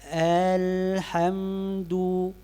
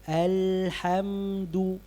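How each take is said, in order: First: The vowels are stretched longer than normal. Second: The vowels are held at their normal length. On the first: The speaker calls it wrong. "Kalau saya begini ... Apakah ada saya tambahkan? Ada" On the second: The speaker calls it right. "kita menyebutkan huruf itu tidak menambah harakat"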